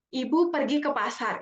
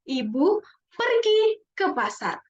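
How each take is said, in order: First: No word is given extra stress. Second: The word pergi is stressed. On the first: "Itu kalau kita ngomong biasa" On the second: "kalau coba kita tekan di perginya"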